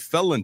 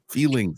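First: The word is slurred, sounding like 'felling'. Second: The word is clearly enunciated as 'feeling'. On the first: The speaker calls it wrong. "How we felling?" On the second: The speaker calls it right. "We want to really enunciate feeling"

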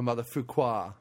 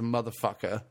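First: The word is pronounced in an affected, fancy way. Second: The word is pronounced in an ordinary way.

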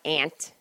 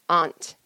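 First: The word sounds like the insect 'ant'. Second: The word does not sound like 'ant'. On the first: The speaker calls it wrong. "It's not aunt" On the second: The speaker calls it right. "There's a U in it"

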